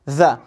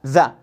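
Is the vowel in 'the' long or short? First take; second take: short; short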